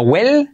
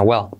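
First: "well" with a light, clear Spanish l; wrong clear L. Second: "well" with a dark, swallowed final l. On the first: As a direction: say "well" with tongue-tip l, rising. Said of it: "No well". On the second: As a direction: let "well" fall onto a w-like l, as "wel-w". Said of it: "Letra L, clave a final de palabra". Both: Shown as a demonstration.

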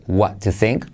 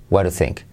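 First: Said in the usual way. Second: "what to think" run together as "wara think"; linked, casual "what to think" with flapped T; T as soft R. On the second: Shown as a demonstration. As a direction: tap the T of "to" like a soft R. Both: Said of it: "se puede convertir en R suave".

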